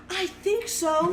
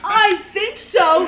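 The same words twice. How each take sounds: First: Slow, higher, hesitant imitation of a mom; feigned uncertainty. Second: High, loud, slow mocking echo; incredulous mimicry. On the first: Mom to Mounties asking if this is her kid, feigned doubt. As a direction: draw it out as if unsure. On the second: Daughter mocking mom's answer to the Mounties, loud incredulous mimicry. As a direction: throw it back exaggerated, through laughter.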